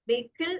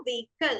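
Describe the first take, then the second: First: "വെഹിക്കിൾ" ending in "kill"; wrong pronunciation. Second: "വെഹിക്കിൾ" ending in "kul", no h; correct pronunciation. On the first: Teacher showing what not to say, mispronounced. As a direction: say "വെഹിക്കിൾ" as VAY-kil. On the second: Teacher asking everyone to repeat, correctly pronounced. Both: Shown as a demonstration. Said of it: "വെഹിക്കിൾ അല്ല".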